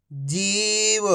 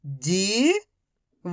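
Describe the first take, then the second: First: Whole word in one go, vowels held; syllables joined. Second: Each syllable slowly held, first one rising. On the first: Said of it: "तो मिलके बन जाएगा". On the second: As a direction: break the word into long, separate syllables. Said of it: "एक अक्षर का उच्चारण करके". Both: Shown as a demonstration.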